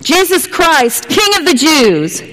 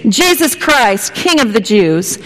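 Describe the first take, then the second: First: High, slow proclamation of the sign; herald calling out. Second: Repeated call, settling back down; herald calling out. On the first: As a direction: announce it like a town crier. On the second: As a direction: call it once more, easing off. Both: Retold or imitated.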